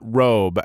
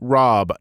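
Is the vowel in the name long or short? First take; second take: long; short. First: The name has a long 'o' vowel. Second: The name has a short 'o' vowel. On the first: The speaker calls it wrong. "not Robe" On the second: The speaker calls it right. "it's pronounced Rob"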